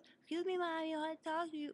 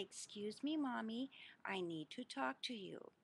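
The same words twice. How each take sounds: First: Put-on high, fast, tiny child voice; little voice. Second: Said in the usual way. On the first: Little son asking his mommy to talk, tiny high voice. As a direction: squeak it out like a small boy asking politely. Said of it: "he talked in a little voice". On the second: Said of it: "Two is to tap mommy lightly on my knee and say".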